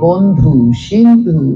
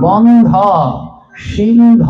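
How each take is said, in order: First: Both words end with an 'u' vowel. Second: Both words end with an 'o' vowel. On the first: It means the friend of one alone. The speaker calls it wrong. "ভুল উচ্চারণ করি আমরা" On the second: It means the friend of all. The speaker calls it right. "ওকার আছে"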